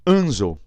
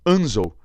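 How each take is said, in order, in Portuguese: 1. A tonicidade está na primeira sílaba. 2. A tonicidade está na primeira sílaba.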